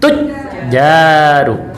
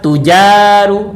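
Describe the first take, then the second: First: The j sound is held long and doubled. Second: The j sound is short and single. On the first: The speaker calls it right. "Harus ada tasdid" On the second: The speaker calls it wrong. "Kalau nggak ada tasdid"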